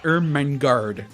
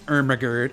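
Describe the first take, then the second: First: The name is said with the n sound. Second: The name is said without the n sound. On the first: The speaker calls it right. "It's Ermengarde" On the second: The speaker calls it wrong. "it looks like Love Child Ermagerd, but it's not Ermagerd"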